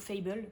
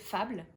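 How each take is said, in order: First: It is said with English pronunciation. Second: It is said with French pronunciation.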